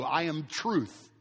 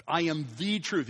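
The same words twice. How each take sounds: First: Said in the usual way. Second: THE stressed and drawn out in "I am the truth"; slow, deliberate weight on "the". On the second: Acted. Preacher quotes Jesus' exclusive claim, stressing "the".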